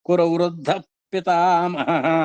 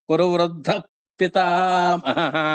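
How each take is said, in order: No difference in how they are said.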